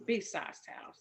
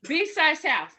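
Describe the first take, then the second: First: Whispered to self. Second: Loud correction. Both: Real, not acted.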